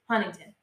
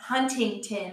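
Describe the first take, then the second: First: The middle T sound is dropped. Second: The middle T sound is clearly pronounced. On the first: This is how locals say the name. The speaker calls it right. "I don't care if there's a goddamn T in that fucking word. It is Huntington" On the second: This is how outsiders say the name. The speaker calls it wrong. "Not Huntington"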